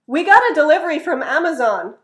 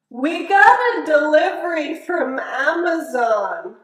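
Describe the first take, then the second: First: The sentence is said at a fast, natural speed. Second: The sentence is said at a slow, careful speed. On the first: "and then native speed"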